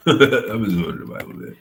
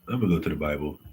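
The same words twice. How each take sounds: First: Higher and louder, through a laugh. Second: Said in the usual way. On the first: Real, not acted. Streamer repeats to chat, laughing at himself.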